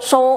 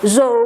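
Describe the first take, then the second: First: It begins with a voiceless s sound. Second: It begins with a voiced z sound. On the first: The speaker calls it wrong. "nggak bisa so" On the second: The speaker calls it right. "tapi harus zo"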